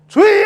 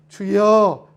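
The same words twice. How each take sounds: First: It is cried out loudly in distress. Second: It is said calmly, as an ordinary call.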